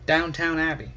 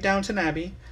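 First: The second syllable sounds like 'town'. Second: The second syllable sounds like 'tun'. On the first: The speaker calls it wrong. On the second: The speaker calls it right. "why are you saying Downton?"

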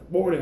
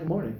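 First: It is said in an aggressive way. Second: It is said in a friendly way.

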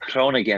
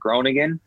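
First: It is said with a Dutch guttural sound. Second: It is said with a North American accent.

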